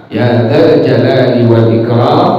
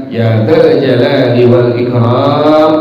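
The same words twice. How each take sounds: The two takes are said the same way.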